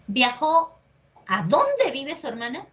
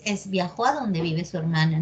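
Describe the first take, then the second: First: "dónde" stressed and raised as a question word; emphatic dónde. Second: Said in the usual way. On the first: Shown as a demonstration. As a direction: hit "dónde" as if it carried a tilde. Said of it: "¿Así es?". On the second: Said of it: "No tiene énfasis".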